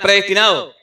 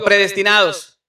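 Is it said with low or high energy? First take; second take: high; low. First: It is said loudly, with high energy. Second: It is said plainly, with low energy.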